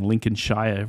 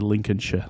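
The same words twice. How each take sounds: First: It is said with an American pronunciation. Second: It is said with a British pronunciation.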